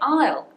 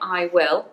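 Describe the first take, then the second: First: Will is reduced and joined to the pronoun. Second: Will is said as a full separate word. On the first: The speaker calls it right. "We say I'll" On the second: The speaker calls it wrong. "We don't say I will"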